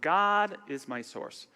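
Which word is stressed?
God. The stress falls on the word God. "emphasize each word"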